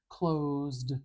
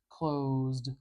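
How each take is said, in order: No difference in how they are said.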